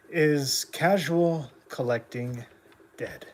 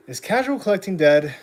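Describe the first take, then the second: First: Said in the usual way. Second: Casual stressed, said louder; punchy rhetorical question. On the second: Shown as a demonstration. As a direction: hit casual, then ask it loud.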